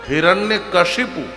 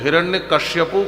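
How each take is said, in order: First: The second word is said as kashipu. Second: The second word is said as kashyapu. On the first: The speaker calls it right. "शुद्ध नाम है हिरण्य कशिपु" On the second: The speaker calls it wrong. "कुछ हिरण्य कश्यपु कहते हैं"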